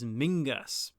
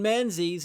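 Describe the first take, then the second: First: The name is said with no z, like 'Mingus'. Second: The name is said with a z sound, like 'Menzeez'.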